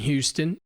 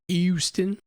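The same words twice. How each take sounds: First: The word starts with an H sound. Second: The word starts without an H sound.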